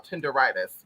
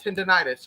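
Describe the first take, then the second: First: "Tenderitis" with an R replacing the N; playful mispronunciation. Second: "tendinitis" with an N in the middle; rejected pronunciation. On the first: Host insisting to viewers, "Tenderitis" with a deliberate R. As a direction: say "Tenderitis" as ten-der-EYE-tis, insisting. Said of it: "We said it right". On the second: Host correcting viewers, "tendinitis" said with the N. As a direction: say "tendinitis" as the version being dismissed. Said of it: "Not tendinitis, y'all. Tenderitis. We said it right". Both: Shown as a demonstration.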